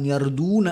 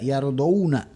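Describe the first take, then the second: First: The d is followed by a long 'u' vowel. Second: The d is followed by the diphthong 'aw'. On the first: The speaker calls it wrong. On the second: The speaker calls it right.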